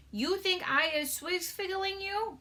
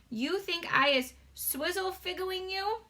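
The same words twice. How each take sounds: First: High, slow giant voice tripping on the word; a gentle giant fumbling his made-up word; BFG voice, stumbling. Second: High, slow giant voice, word said cleanly; a gentle giant getting it right; BFG voice, retried. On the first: Giant asking Sophie, fumbled first take. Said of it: "that one was hard". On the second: Giant asking Sophie, clean second take. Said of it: "Let me try again". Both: Acted.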